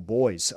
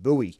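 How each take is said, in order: First: The word is said the Australian way. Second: The word is said the American way. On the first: "what we call buoys" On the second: "the way the Americans pronounce"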